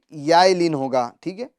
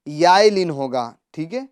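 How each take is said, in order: Both takes have the same delivery.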